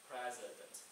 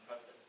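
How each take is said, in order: First: The word is said slowly, one syllable at a time. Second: The word is said quickly and run together. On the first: The speaker calls it right. "slow down and try to pronounce the word like uh, one syllable at a time" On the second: The speaker calls it wrong. "I stick too fast ... people don't understand what I'm talking about"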